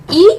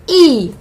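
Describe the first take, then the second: First: ई cut short, pitched up; short vowel ई. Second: ई held long; long vowel ई. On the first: Teacher contrasting short and long vowels, short ई. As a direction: say ई briefly, raised. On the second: Teacher contrasting short and long vowels, long ई. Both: Shown as a demonstration. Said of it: "ह्रस्व और दीर्घ के उच्चारण का फर्क".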